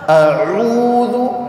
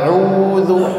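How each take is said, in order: First: The voice sounds forced and strained. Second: The voice sounds easy and relaxed. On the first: The speaker calls it wrong. "terlalu memaksakan" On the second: The speaker calls it right. "Belajar nyantai aja"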